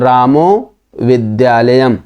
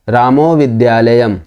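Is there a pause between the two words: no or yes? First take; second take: yes; no. First: There is a pause between the two words. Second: The two words run together without a pause. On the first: The speaker calls it wrong. "ऐसा पढ़ेंगे तो गलत है ये" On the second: The speaker calls it right. "दोनों के बीच में gap नहीं होना चाहिए"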